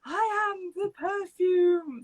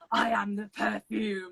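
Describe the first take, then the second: First: It is said in a light, high, fluty voice. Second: It is said in a deep, menacing voice. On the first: "she had like a flute voice" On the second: "in like a deep, like evil voice"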